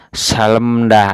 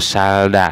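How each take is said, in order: First: An l and an m come before da. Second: Only an l comes before da. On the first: "tidak dibaca salemda" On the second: "atau salda ya"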